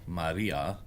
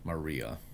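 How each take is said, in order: First: The r is said like a Spanish r. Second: The r is said like an English r. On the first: "with a more of a Spanish sounding r" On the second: "with an English sounding r"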